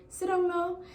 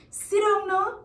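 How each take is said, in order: First: "Sit down no" high but without extra volume; easy, high-pitched "Sit down no", no authority; not so strong. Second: "Sit down no" high and loud, as an order; firm, high "Sit down no" with force; strong command. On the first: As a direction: offer "Sit down no" to a friend, high and unforced. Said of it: "but it's not so strong". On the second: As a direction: order a misbehaving child with "Sit down no", pitched high. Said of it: "it's a strong sit". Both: Shown as a demonstration.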